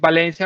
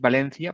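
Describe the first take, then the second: First: The c is pronounced as an s sound. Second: The c is pronounced as a th sound. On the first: This is how most Spanish-speaking countries say it. "for me, it's" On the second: This is how people in Spain say it. "For them, it's"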